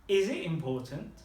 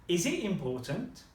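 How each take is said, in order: Both takes have the same delivery.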